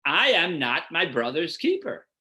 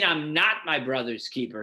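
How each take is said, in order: First: "I" stressed, indignant protest. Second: "not" stressed in a plain flat denial. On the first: Teacher showing what Cain meant, stress on "I". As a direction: punch "I" as an indignant question. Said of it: "He meant". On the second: Teacher showing the reading Cain did not mean, stress on "not". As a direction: lean on "not", a plain statement. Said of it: "He didn't mean". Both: Shown as a demonstration.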